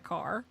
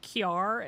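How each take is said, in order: First: Said in the usual way. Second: "kiar" with a y glide after the k; teacher's pronunciation. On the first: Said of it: "instead of". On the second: Retold or imitated. Imitating childhood teacher's word, glided "kiar". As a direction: slip a y into car: "kyar". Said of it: "my teacher when I was a kid said".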